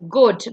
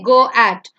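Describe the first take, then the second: First: Only the first vowel is sounded, one syllable. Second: Both vowels are sounded as two syllables. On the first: The speaker calls it right. "but you say it's goat" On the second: The speaker calls it wrong. "You don't say go at"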